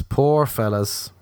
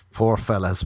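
First: Poor fellas drawn out slowly; slow pity. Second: Said in the usual way. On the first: Shown as a demonstration. Mocking men without personalities, slow mock pity.

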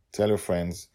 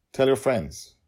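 First: Said in the usual way. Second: Higher, louder urging; eager plea. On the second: Acted. Host urging listeners to share, loud and eager. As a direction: push them to share it. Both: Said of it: "repeated plea".

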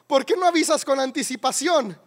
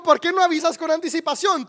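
First: Said in the usual way. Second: Wife raises her voice to correct him; exasperated louder repeat. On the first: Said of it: "te dijo". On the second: Retold or imitated. Wife repeats the driver's words, exasperated and loud. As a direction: repeat it higher and louder, stressing "no". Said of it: "Te dijo".

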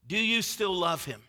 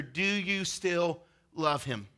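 First: Said in the usual way. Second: Slow and soft, letting it sink in; slow, soft question. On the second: Shown as a demonstration. Preacher slowing to pose the question softly. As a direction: ask it slowly and gently. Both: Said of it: "And it's this question right here".

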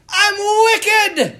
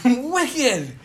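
First: High, loud Irish holler; Irish accent. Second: Toned-down echo of an Irish cry; Irish accent. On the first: Imitating an Irish priest answering his students as he walks, Irish accent. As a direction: cry it out in a hammed-up Irish accent. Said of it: "this deep Irish accent". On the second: Preacher quoting the Irish priest to make his point, mild Irish accent. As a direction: repeat it with a light Irish lilt, slightly raised. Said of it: "such a great way of saying". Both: Retold or imitated.

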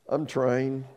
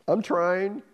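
First: Said in the usual way. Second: I'm trying pushed up with a rising end; rising strain. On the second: Acted. Second try, rising.

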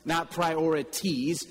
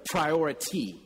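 First: Priorities drawn out slowly with the plural stressed; the plural said with a slight frown. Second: Priority said alone, firmly; one priority, not many; singular priority. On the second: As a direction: land on the single word priority. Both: Shown as a demonstration. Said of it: "make it singular".

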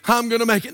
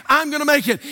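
First: Imitating a half-hearted reply; unconvinced. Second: Imitating a firmer, more convinced reply; with belief. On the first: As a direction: say it without really believing it. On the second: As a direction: repeat it as if you believe it. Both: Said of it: "Say it like you believe it".

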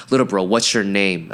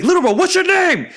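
First: Said in the usual way. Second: Very high-pitched shouted question; insistent yell. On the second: Retold or imitated. Big bro testing little bro for concussion, high insistent shouting. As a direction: yell it as an imitated exasperated big brother.

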